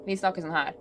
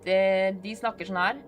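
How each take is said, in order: First: Northern Norwegian dialect. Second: Southern Norwegian dialect. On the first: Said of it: "we speak like this". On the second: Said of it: "They are the ones that is bad at English". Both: Shown as a demonstration.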